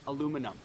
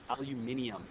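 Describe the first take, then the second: First: The word ends with an -um sound. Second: The word ends with an -ium sound. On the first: The speaker calls it wrong. "but then aluminum. No" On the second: The speaker calls it right. "That's the right way to say it"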